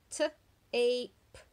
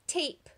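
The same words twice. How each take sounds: First: T-ape with the long A drawn out; stretched A sound. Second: Said in the usual way. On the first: Shown as a demonstration. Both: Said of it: "If it says A".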